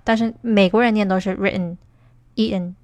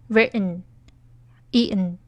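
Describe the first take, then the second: First: Said in the usual way. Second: Written, E N drawn out very slowly, letters spelt apart; slow demo. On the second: Shown as a demonstration. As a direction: spell out written, E N slowly for learners. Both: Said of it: "美式发音很难读".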